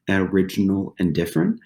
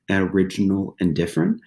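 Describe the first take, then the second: No difference in how they are said.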